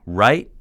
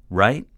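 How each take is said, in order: First: Louder insistent demand for an answer. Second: Almost yelling. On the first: Mentor demanding an answer from the man, insistent. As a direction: press hard for a yes. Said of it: "he demanded an answer". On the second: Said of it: "Sai was almost yelling". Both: A narrator's reading.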